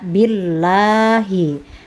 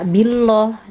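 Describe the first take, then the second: First: The L sound is thin and light. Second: The L sound is thick and heavy. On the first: The speaker calls it right. "maka dibaca tipis" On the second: The speaker calls it wrong. "bukan dibaca billah"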